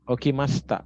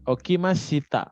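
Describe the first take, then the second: First: The i after sh is dropped, giving 'masta'. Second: The i after sh is fully pronounced, 'mashita'. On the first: It sounds like a native speaker. The speaker calls it right. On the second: It sounds like a beginner. The speaker calls it wrong.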